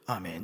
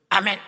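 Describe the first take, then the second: First: It is said flatly and half-heartedly. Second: It is said eagerly and loudly.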